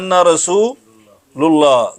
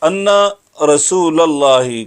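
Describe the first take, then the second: First: The vowel after 'rasul' is 'u'. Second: The vowel after 'rasul' is 'a'. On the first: The speaker calls it wrong. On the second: The speaker calls it right.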